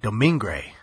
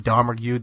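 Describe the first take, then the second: First: The surname is said as Domingue. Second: The surname is said as Domergue. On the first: This is how it is said at the film's end. The speaker calls it right. "at the end, they say it's, like" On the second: This is how most people in the film say it. The speaker calls it wrong. "everyone says that"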